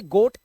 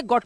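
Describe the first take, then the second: First: गोट with rounded long "oh", as in "goat"; long O reading. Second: गॉट with open short "o", as in "got"; short O reading. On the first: Teacher contrasts two words for students, गोट with long "oh". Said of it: "ये long vowel sound है". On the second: Teacher contrasts two words for students, गॉट with open short "o". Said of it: "इसे गॉट पढ़ते हैं". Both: Shown as a demonstration.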